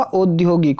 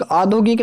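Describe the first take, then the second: First: "औद्योगिक" as "audyogik". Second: "औद्योगिक" as "aadhogik", without y; wrong opening. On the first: Teacher giving students the correction, औद्योगिक said "audyogik". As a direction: say औद्योगिक opening on au, with a y. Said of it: "औद्योगिक होगा". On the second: Teacher showing students the mistake, औद्योगिक said "aadhogik". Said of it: "औद्योगिक नहीं होगा". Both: Shown as a demonstration.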